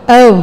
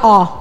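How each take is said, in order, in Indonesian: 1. Vokal O itu meluncur sebagai diftong. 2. Vokal O itu bunyi o murni, datar. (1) "Bacanya antara E sama U disambung" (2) "O-nya orang Jawa"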